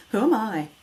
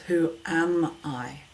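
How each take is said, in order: First: Quick WHO AM I run together, higher and louder; higher, hurried "who am I?" with no weight on AM; doubting question. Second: Slow WHO AM I, AM stretched and stressed; powerful, measured question leaning on AM; emphasis on AM. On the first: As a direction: toss out WHO AM I as self-doubt, AM unstressed. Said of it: "when you start questioning". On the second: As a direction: hold AM, giving each word its own space. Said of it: "Change the emphasis". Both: Shown as a demonstration.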